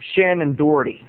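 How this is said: The name is said in an American way.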